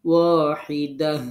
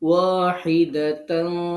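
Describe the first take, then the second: First: The word ends softly in an h sound. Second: The word ends with a t and nasal -tan. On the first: The reciter stops after this word. "যখন থামছি তখন গোলটা হা হবে" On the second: The word is joined to the next word. "যখন মিলায় পড়বো তখন"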